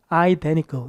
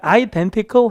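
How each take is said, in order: First: The T after the N is dropped. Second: The T after the N is clearly pronounced. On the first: "이렇게 흘려도 돼요" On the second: "identical 해도 되지만"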